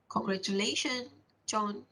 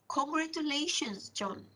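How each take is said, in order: First: It sounds reluctant and not happy for John. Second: It sounds sincerely happy for John.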